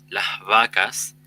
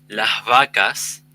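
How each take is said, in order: No difference in how they are said.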